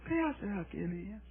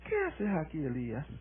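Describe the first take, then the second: First: It is said softly and gently. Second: It is said at normal volume.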